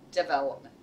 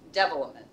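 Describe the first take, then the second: First: The stress is on the first syllable. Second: The stress is on the first syllable.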